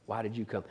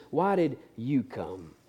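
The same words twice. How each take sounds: First: Much softer, nearly breathed; hushed repeat. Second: Slow and soft; tender question. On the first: Jesus repeating to Judas, hushed. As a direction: drop to a near whisper. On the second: Jesus asking Judas up close, slow and soft. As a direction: ask him gently, face to face. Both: Acted.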